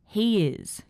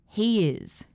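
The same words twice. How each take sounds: First: The words are joined by a gliding Y sound. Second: The words are joined by a gliding Y sound.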